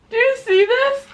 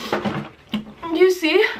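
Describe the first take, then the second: First: High laughing question; quick amused ask; laughing through tears. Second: Slow, drawn-out rising question; lingering teary ask. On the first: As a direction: laugh while showing the spicy tears. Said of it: "Guys, I'm crying". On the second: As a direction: stretch it out, pointing at the tears. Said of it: "Those are spicy tears". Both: Real, not acted.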